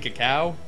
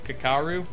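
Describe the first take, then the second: First: The name ends with a 'cow' sound. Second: The name ends with a 'roo' sound. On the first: The speaker calls it wrong. "why I keep saying cacao instead of Kakaru" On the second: The speaker calls it right. "which is how you should actually pronounce it"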